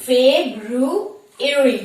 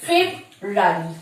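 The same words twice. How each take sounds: First: ফেব্রুয়ারি slowly as Feb-ru-a-ry with every syllable; slow, clear correct ফেব্রুয়ারি; correct pronunciation. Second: ফেব্রুয়ারি slurred as Feb-rary, the common wrong way; slow demo of the mistaken ফেব্রুয়ারি; wrong pronunciation. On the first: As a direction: model the right ফেব্রুয়ারি carefully. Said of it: "the correct pronunciation is". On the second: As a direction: show the lazy wrong ফেব্রুয়ারি. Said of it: "কিভাবে উচ্চারণ করি?". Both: Shown as a demonstration.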